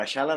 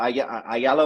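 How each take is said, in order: First: The name is said with an Argentinian accent. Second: The name is said without an Argentinian accent.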